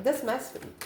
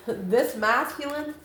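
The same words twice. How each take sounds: First: "masculine" slipped out sounding like "Mexican"; a quick flub that says "masculine" almost as "Mexican"; slip of the tongue. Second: "masculine" said slowly and carefully, every syllable clear; slow down and fix "masculine" properly; careful correction. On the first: Tarot reader to viewers, a slipped word. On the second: Tarot reader correcting her slip, slow and careful. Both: Real, not acted. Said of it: "I don't know why I said Mexican".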